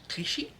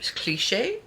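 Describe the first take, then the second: First: The name ends in an "ee" vowel sound. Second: The name ends in an "ay" vowel sound. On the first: The speaker calls it right. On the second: The speaker calls it wrong.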